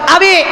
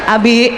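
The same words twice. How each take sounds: First: The name is called at very high pitch. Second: The name is called at normal pitch. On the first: This is the third call, now exasperated. "yang ketiga tujuh oktav" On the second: This is the first call. "manggil suaminya satu kali"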